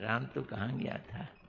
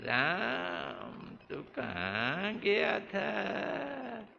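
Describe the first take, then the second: First: It is asked as a plain, neutral question. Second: It is asked knowingly, as if accusing.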